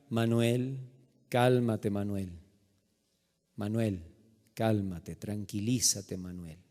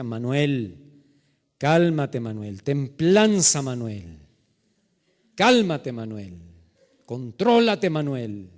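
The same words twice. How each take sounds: First: Low, hushed, measured restraint; self-calming patience. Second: Forceful commands, each name dropping low; straining patience. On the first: Man restrains himself in store story. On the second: Man in a store fighting to stay calm, strained self-control. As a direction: burst on the command, then rein it in. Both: Retold or imitated.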